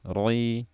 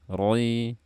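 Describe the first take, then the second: The two takes are said the same way.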